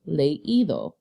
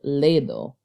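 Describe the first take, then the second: First: The e and i are said as separate syllables. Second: The e and i blend into one syllable. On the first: The speaker calls it right. "We want to clearly hear the ending ido" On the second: The speaker calls it wrong. "I would pronounce it ledo. But we don't want to hear ledo"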